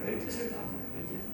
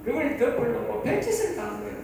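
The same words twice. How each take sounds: First: Whispered repeat. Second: Said in the usual way. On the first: Real, not acted. Repeats line, then drops to whisper.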